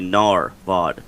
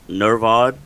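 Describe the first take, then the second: First: The first syllable sounds like 'nahr'. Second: The first syllable sounds like 'ner'. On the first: The speaker calls it right. "It's actually Narvod, pronounced N A H R" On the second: The speaker calls it wrong. "We've been saying ner- Nervod"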